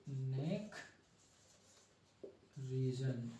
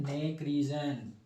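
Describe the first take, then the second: First: Soft neck, long pause, soft reason; slow dictation. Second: Said in the usual way. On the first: Real, not acted. Teacher writing the neck label for students, soft dictation. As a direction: say neck region quietly, one word at a time. Repeats term while writing it.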